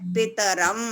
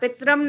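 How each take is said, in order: First: It is said slowly, the vowel after t full. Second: It is said fast, the vowel after t dropped. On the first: The speaker calls it right. "तकार में भी पूरा अ है और रकार में भी पूरा अ है" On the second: The speaker calls it wrong. "ता को ना इतना फास्ट नहीं बोलना चाहिए ... ऐसा पितरम नहीं बोलना है"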